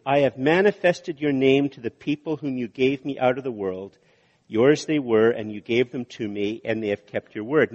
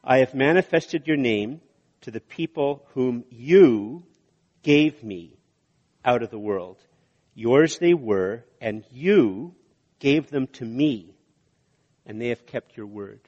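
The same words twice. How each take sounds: First: Brisk read-through of the verse without lingering; read fairly quickly. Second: Slow, deliberate reading with long pauses between phrases; read more slowly. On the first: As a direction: run straight through the verse. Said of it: "I said that fairly quickly". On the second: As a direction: let each phrase land before the next. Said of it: "I'm gonna read it more slowly". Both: Shown as a demonstration.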